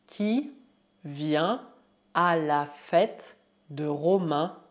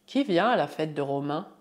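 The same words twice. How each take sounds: First: Slow dictation with pauses; word by word. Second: Said in the usual way. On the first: Shown as a demonstration. Teacher models party question, slow word by word. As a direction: set each small group of words apart.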